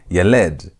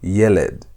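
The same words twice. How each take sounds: First: The stress is on the last syllable. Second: The stress is on the first syllable. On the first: The speaker calls it wrong. "So you're not going to emphasize the last part. You're not going to say yeled" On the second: The speaker calls it right. "You're going to say yeled"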